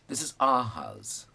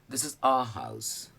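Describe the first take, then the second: Both takes have the same delivery.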